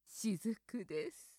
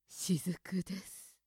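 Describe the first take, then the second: First: It is said in a sexy, seductive voice. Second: The same.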